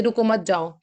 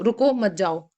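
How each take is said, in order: First: "रुको मत" run together, then "जाओ"; no break after रुको. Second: "रुको", short break, then "मत जाओ"; pause after रुको. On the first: Teacher giving a customer the other reading, "रुको मत" joined. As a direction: join "रुको मत" as one unit before "जाओ". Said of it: "या फिर आप बोल दीजिए". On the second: Teacher telling a customer to wait, pause after "रुको". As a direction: keep "मत जाओ" joined after stopping on "रुको". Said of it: "आप उसको बोल दीजिए". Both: Shown as a demonstration.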